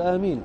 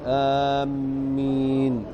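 First: The m sound is single and short. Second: The m sound is doubled and held. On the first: It means asking God to answer. The speaker calls it right. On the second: It means heading toward a place. The speaker calls it wrong.

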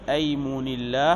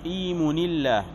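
First: The first vowel is an open 'a'. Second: The first vowel is an 'i'. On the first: This is the more common form. "هذا الأكثر" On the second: This is the less common form. "بكسر الهمزة"

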